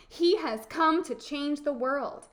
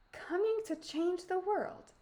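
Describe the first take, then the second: First: Lightly voiced boy's proclamation; mildly urgent, full-voiced telling; earnest storybook boy. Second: Put-on high, musing old-woman voice; high, hushed echo of what was heard; muttering old woman. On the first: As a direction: announce it with conviction, slightly raised. Boy urges, later echoed by Befana. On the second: A narrator's reading. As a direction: mull it over to yourself, pitched up. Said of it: "she muttered".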